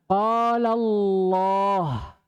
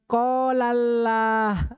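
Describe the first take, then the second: First: The L in Allah is thick and heavy. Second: The L in Allah is thin and light. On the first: The speaker calls it right. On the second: The speaker calls it wrong. "Tidak boleh lagi ada orang baca"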